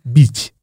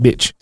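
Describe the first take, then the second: First: Bitch said as "beech"; French-style pronunciation. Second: Said in the usual way. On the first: Shown as a demonstration. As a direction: say bitch with a long ee. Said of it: "maybe it said bitch". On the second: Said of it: "but it's spelt bitch".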